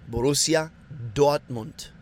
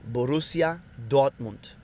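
No difference in how they are said.

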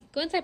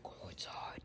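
First: It is said in her normal voice. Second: It is said in a scary voice.

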